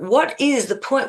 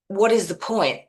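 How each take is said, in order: First: It sounds open and genuinely curious. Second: It sounds defeated and dismissive. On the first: There is a purpose waiting to be found. The speaker calls it right. "Say it with an open way of, it's like looking up to spirit" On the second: Nothing seems worth doing. The speaker calls it wrong. "instead of leaning into saying"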